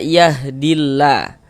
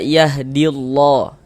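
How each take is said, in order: First: The L sound is light and thin. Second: The L sound is heavy and thick. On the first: The speaker calls it right. "Ini kita baca" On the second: The speaker calls it wrong. "Jangan dibaca ... salah"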